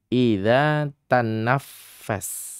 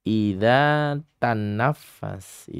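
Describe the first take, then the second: Both takes have the same delivery.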